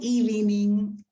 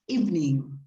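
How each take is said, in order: First: Every written syllable is pronounced, giving three syllables. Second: A middle syllable is dropped, giving two syllables. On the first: The speaker calls it wrong. "is not evening" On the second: The speaker calls it right. "is evening"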